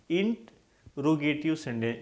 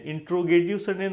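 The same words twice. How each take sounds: First: इंटरोगेटिव split slowly, "int... ro-ge-tiv"; model pronunciation. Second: इंट्रोगेटिव run together as "intro-getiv"; mispronunciation demo. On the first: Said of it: "इसको क्या बोलेंगे?". (इंटरोगेटिव धीरे, "इंट... रोगेटिव" तोड़कर) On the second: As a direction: join "int" and "ro" in इंट्रोगेटिव as "intro". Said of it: "इंट्रोगेटिव sentence नहीं". (इंट्रोगेटिव में "इंट्रो" मिलाकर बोलें) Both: Shown as a demonstration.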